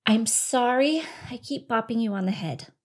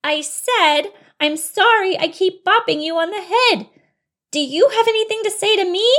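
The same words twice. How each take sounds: First: Said in the usual way. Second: High, loud, insistent; exasperated apology. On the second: Acted. Bunny repeating ignored apology to mouse, exasperated loud voice. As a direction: nearly yell the apology, demanding an answer.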